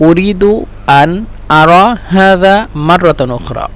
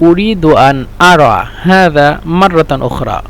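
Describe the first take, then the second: No difference in how they are said.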